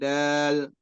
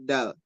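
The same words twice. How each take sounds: First: The vowel is drawn out long. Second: The vowel is kept short. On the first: The speaker calls it wrong. "Dalnya jangan, jangan panjang ya. ... Bukan dal" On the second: The speaker calls it right. "Tapi dal"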